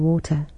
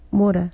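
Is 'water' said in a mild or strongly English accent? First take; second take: strongly English; mild. First: It is said in a strongly English accent. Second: It is said in his everyday, less English accent.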